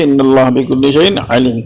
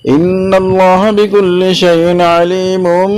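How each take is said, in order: First: It ends on a full stop after the last word. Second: The last word links straight into the next verse. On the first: "পরে আমি থামলাম" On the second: "এবার ওয়াসল একসাথে মিলিয়ে নেবেন"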